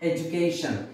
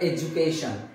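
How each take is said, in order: No difference in how they are said.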